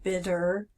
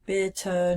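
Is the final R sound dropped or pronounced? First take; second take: pronounced; dropped. First: The final R sound is pronounced. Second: The final R sound is dropped. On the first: The speaker calls it wrong. "not bitter, or and get rid of that American R" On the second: The speaker calls it right. "make sure that we do pronounce that as bitter"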